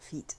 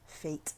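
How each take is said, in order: First: The vowel sounds like the one in 'meet'. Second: The vowel sounds like the one in 'late'. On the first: The speaker calls it wrong. "not feet" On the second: The speaker calls it right.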